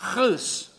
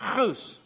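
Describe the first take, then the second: First: The first sound is harsh and strongly guttural. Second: The first sound is light and soft.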